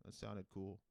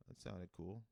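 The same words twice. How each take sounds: The two takes are said the same way.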